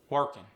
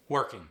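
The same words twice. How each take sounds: First: "Working" ending in a plain N, workin'; dropped G. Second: Said in the usual way. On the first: Shown as a demonstration. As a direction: drop the G of "Working". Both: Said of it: "dropping the G".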